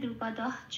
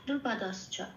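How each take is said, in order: First: No s sound comes before 'ca'. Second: An s sound links into 'ca'. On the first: This follows the original Sanskrit rule. "Original উচ্চারণ করতে হলে বলতে হবে" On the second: This is how it is usually chanted. "এভাবে বলছি"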